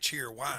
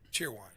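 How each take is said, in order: First: The stress falls on the word wine. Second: The stress falls on the word cheer. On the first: This is how locals say it. The speaker calls it right. "The wine, for some reason, has the accent" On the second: This is not how locals say it. The speaker calls it wrong. "they don't say cheer wine"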